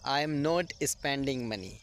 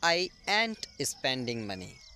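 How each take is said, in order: First: Every word is said in full. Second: 'Am not' is shortened into one word. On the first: "ये simple तरीका है" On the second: "ये short तरीका है"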